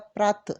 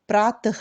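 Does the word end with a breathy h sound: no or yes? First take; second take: no; yes. First: The word ends without a final breathy h sound. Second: The word ends with a final breathy h sound. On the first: The speaker calls it wrong. "प्रात बोलने से गलत होगा" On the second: The speaker calls it right. "प्रातः करके बोलने से वो शब्द का सही उच्चारण होगा"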